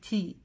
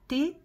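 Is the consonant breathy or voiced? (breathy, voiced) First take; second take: breathy; voiced. First: The consonant is voiceless with more air. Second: The consonant sounds voiced and heavy. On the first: The speaker calls it right. "она глухая буква, больше воздуха" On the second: The speaker calls it wrong. "такой звук получается звонкий"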